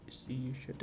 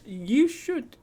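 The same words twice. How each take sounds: First: Soft, dropped repeat; quiet aside. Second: Bright, eager urging; excited high call. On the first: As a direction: say it softly under your breath. Soft repeat after eager call. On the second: Urging a chat viewer to visit. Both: Real, not acted.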